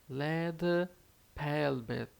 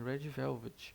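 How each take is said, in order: First: The first word starts with an L sound. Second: The first word starts with an R sound.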